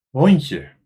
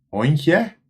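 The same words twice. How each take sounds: First: The final vowel is a weak schwa sound. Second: The final vowel is a full, clear vowel. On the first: "maar we zeggen hondje" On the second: "We schrijven hondje"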